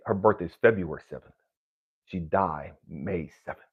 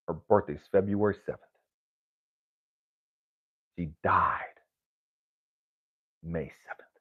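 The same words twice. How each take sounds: First: Said in the usual way. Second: "February" and "died" leaned on, quieter, with long pauses; slow, weighted repeat. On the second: Shown as a demonstration. Telling the audience his mother's dates, slow and heavy. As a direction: lay each fact down slowly so it lands. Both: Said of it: "Catch that".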